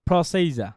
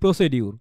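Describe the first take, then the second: First: The middle consonant is a j sound. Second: The middle consonant is a d sound. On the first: The speaker calls it right. "এটা সঠিক উচ্চারণ কি জানেন?" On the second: The speaker calls it wrong. "আমরা কি বলি প্রসিডিউর"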